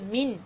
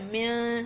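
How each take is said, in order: First: The final n is clear, with no nasal hum. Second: The final n is held with a nasal hum. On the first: The speaker calls it right. "Dia min" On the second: The speaker calls it wrong. "Bukan min, salah"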